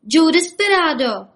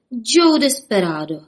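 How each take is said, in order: First: High, loud cry of the name; shouting in ear. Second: Slow, dread-filled naming of the outlaw; frightened peep. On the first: Rabbits shouting into the sleepy sheriff's ear, high and loud. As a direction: yell it together like excited little rabbits. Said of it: "křičeli mu do ucha". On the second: Barman as the outlaw appears, squeaking the name in fright. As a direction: draw the name out in fearful alarm. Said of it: "pípl barman a strachy se rozklepal". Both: A narrator's reading.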